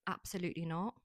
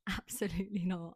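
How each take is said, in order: First: Said in the usual way. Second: Giggling absolutely not; laughing. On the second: Real, not acted. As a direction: laugh through the refusal. Repeated refusal, laughing.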